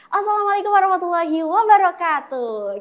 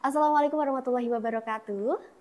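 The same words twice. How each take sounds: First: It is said playfully in a bright, shrill voice. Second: It is said smoothly in one connected run. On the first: This is an informal, fun event. "lebih enjoy, lebih fun gitu" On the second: This is a formal but relaxed event. "Jadi langsung der, langsung nyambung gitu"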